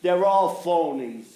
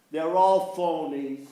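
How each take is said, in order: Both takes have the same delivery.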